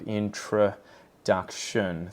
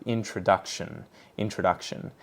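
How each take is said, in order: First: "introduction" very slowly, syllable by syllable; "introduction" drawn out as in-truh-duc-shun; reduced schwa syllables. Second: Said in the usual way. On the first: Shown as a demonstration. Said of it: "They get the schwa vowel sound". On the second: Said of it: "So it's this uh vowel sound".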